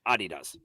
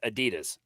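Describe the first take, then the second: First: It is said with a non-American pronunciation. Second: It is said with an American pronunciation.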